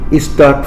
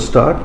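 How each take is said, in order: First: An extra vowel sound comes before the word. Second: The word starts directly without an extra vowel. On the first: The speaker calls it wrong. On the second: The speaker calls it right.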